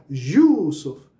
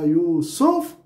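First: Yusuf with यू punched loud and drawn out, सुफ dropped; heavy, slow stress on the यू of Yusuf; stress on first syllable. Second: Slow Yusuf, weight thrown onto a rising सुफ; stress on second syllable. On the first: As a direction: hit and stretch the यू in Yusuf, let सुफ fall away. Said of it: "अगर मैंने यू पे ज़ोर दिया". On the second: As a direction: keep यू light, then hit सुफ hard in Yusuf. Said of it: "तो stress दूसरे part पे चला गया". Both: Shown as a demonstration.

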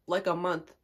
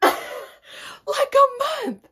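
First: Said in the usual way. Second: Laughing, high, loud drawn-out outburst; incredulous shriek. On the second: Real, not acted. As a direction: shriek it in disbelief, stretched out. Repeats it in disbelief.

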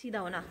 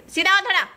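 First: Soft repeat. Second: High, loud call to straighten up; called instruction. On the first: Mother softly urges her daughter to stand straight. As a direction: say it under your breath now. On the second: Mother calls to her daughter to stand straight, high and loud. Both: Real, not acted.

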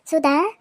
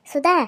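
First: Loud call with a rising end; raised voice calling a family member. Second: Loud call with the last vowel stretched; a second, longer loud call; calling out again. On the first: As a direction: call her name across the house. Calling daughter from another room. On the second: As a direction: hold the end of the name as you call. Calling daughter again, vowel drawn. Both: Acted.

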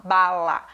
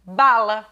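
First: "bala" broken into BA-LA, second syllable held. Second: Said in the usual way. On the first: Shown as a demonstration. Teacher showing how nobody really talks, syllable by syllable. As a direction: say bala as two separate, equal syllables. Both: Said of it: "Ninguém fala bala".

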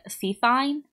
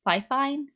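First: FIFINE as "fee-fine", questioning; unsure pronunciation. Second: FIFINE as "fye-fine", higher and questioning; alternative pronunciation. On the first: Streamer naming the mic brand, Fifine said unsurely as "fee-fine". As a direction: try "Fifine" with a first syllable like "fee". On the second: Streamer guessing at the mic brand, Fifine tried as "fye-fine". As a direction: try "Fifine" with both syllables rhyming with "eye". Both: Shown as a demonstration. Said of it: "I don't know. It doesn't really matter".

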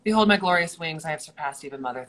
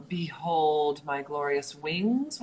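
First: Loud, fast grandiose boast; pompous vain hero. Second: Slow grandiose boast; pompous vain hero. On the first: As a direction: proclaim your wings, full of yourself. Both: Acted. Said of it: "What's my wings line?".

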